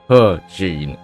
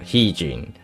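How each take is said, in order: First: The first syllable ends with an R sound. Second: The first syllable has no R sound. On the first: The speaker calls it right. "So it's pronounced as her, with an R, a visible R" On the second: The speaker calls it wrong.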